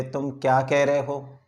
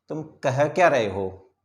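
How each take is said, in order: First: Said in the usual way. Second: क्या stressed and slowed, annoyed. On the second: Shown as a demonstration. Teacher demonstrating an angry question, क्या stressed. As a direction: lean on क्या to show anger. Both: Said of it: "इससे हम अपना anger show कर रहे हैं".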